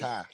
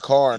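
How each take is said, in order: First: It is said with a Southern-sounding, r-less vowel. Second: It is said with a full Californian r sound. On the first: The speaker calls it wrong. "not Kai" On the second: The speaker calls it right. "we know as we say car"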